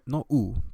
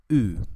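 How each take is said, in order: First: The vowel is said with unrounded lips. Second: The vowel is said with rounded lips. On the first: The speaker calls it wrong. "No, no U" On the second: The speaker calls it right. "una U con tus labios redondeados"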